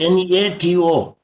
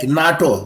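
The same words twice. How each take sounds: First: "N A T O" spelt out letter by letter; each letter of "N A T O" pronounced on its own; letters said separately. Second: "nato" run together as a single word; "nato" pronounced like an ordinary word; said as one word. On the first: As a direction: say "N A T O" as four letter names. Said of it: "I did not say N A T O". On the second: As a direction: say "nato" in two syllables, not letter by letter. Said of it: "I pronounced like a one word". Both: Shown as a demonstration.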